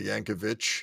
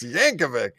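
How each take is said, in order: First: The name ends with a Serbian-style final sound. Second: The name ends with a plain English final sound. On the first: The speaker calls it wrong. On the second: The speaker calls it right.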